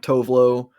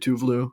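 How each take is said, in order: First: The name is said with an American pronunciation. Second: The name is said with a Swedish pronunciation. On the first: "is the American pronunciation" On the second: "it's actually"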